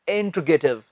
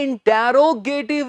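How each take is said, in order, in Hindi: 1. T सीधे R में जुड़ जाता है। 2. T के बाद एक अतिरिक्त स्वर है। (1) "इसका सही उच्चारण है इंट्रोगेटिव" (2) "जी ये इंटेरोगेटिव नहीं होता"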